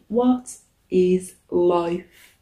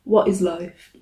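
First: Drawn-out. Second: Said in the usual way. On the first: Acted. Slow drawn-out repeat.

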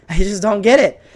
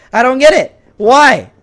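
First: Said in the usual way. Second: Higher and louder, baffled; louder exasperated repeat. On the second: Real, not acted. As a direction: throw up your hands on it. Repeating in frustration.

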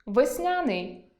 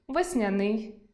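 First: Весняний with the stress on я, весня́ний, slowly; stress on the second syllable. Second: Весняний with the stress on the final и, весняни́й; stress on the last syllable. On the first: Teacher showing весня́ний as one correct variant. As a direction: say весняний as весня́ний, slow and falling. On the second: Teacher giving the other variant весняни́й. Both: Shown as a demonstration. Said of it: "Наприклад".

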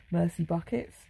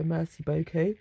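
First: "merci buckets", with beaucoup turned into English buckets; jokey anglicised French. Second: Said in the usual way. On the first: Retold or imitated. Quoting mum's old thank-you, jokey anglicised "merci buckets". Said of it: "My mum always used to say it". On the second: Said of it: "how I always, always often go".

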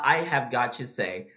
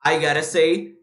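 First: "have got to" slower, every word kept; full unreduced form. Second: "gotta" run together as one word, said louder; reduced linked form. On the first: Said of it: "Tá vendo como eles usam". ("have got to" completo, mais lento e mais grave) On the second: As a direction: link "got to" into a quick "gotta". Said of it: "é a mesma coisa que eu falar". ("gotta" juntado numa palavra só, mais forte) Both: Shown as a demonstration.

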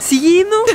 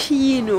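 First: "Kino?" with a hard K, rising like a question, half laughing. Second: "kino" said as "sjino" with a soft sh-sound. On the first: Trying out the other dialect for viewers, hard K and a laugh. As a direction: try "Kino?" with a hard K, amused. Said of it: "ikke sier kino i alle dialekter". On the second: Explaining to viewers how we say "kino", soft sh-sound. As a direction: say "kino" the Oslo way, starting with a soft sh. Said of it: "vi sier kino". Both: Shown as a demonstration.

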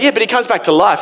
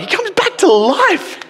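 First: Said in the usual way. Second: Very high, slow, laughing disbelief; incredulous squeal. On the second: Retold or imitated. Stunned reader hearing of the resurrection, squealing in disbelief. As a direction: squeak it out in total amazement.

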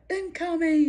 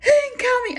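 First: High warning call at normal volume; half-hearted lookout call, pitched up; retold warning call. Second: Very high, loud mock scream; imitated scream. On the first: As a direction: call it out high without shouting. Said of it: "so I'd be like". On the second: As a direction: imitate a friend screaming a warning. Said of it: "she'd scream out".

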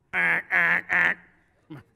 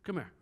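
First: Calling out. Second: Said in the usual way. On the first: Real, not acted. Preacher calls a man to the front.

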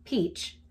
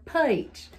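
First: "Peach" with a clean long ee; standard pronunciation. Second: "peach" opened into "pie-tch"; thick Southern vowel in "peach"; Southern pronunciation. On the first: Repeating the peach comparison, standard "Peach". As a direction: neat non-Southern "Peach". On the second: Repeating the peach comparison, Southern "peach". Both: Shown as a demonstration. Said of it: "It's like the difference between".

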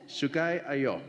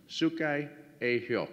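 First: Said in the usual way. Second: "Sukai Ayo" said very slowly, each syllable spelled out for the audience; slow, careful repeat. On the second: Shown as a demonstration. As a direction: stretch "Sukai Ayo" out slowly so they can catch it.

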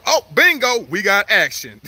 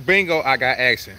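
First: Excited. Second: Said in the usual way. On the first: Real, not acted. Gator takes the bait.

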